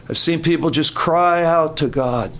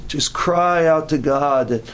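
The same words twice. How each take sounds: First: Said in the usual way. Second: Slow emphatic repeat. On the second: Shown as a demonstration.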